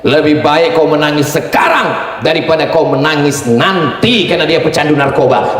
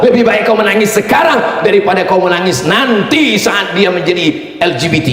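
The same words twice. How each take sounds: First: Said in the usual way. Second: Stern shout. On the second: Shown as a demonstration. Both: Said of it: "Gini cara bapak nasihatinya".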